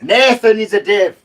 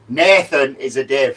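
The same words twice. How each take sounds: First: It is shouted. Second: It is said loudly.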